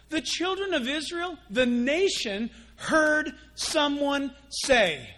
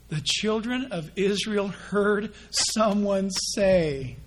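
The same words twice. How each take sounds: First: Heard drawn out slow and high; emphatic repeat. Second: Put-on the children of Israel heard someone say, each word slow and weighty; slow emphatic reading. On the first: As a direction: lean hard on heard. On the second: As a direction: read it slowly so they mark it. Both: Shown as a demonstration. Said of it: "can you mark that".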